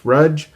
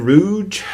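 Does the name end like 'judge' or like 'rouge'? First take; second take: judge; rouge. First: The name ends with a sound like 'judge'. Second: The name ends with a sound like 'rouge'. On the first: This follows the spelling and is what others say. "which the spelling of the last name of the character would suggest Rudge" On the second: This is how an expert on the author said it. "but I've always said Rouge"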